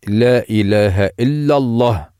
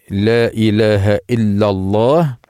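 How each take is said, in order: Both takes have the same delivery.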